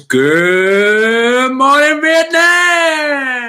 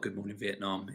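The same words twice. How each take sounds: First: It is shouted loudly and drawn out. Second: It is said at normal volume and pace.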